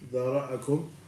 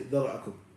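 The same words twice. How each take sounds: First: The word is said slowly with full vowels. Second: The word is said quickly with shortened vowels. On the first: The letters are given their due length. The speaker calls it right. "You have to say it slower. Dhara'akum, like this" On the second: The letters are not given their due length. The speaker calls it wrong. "You don't say dhara'akum"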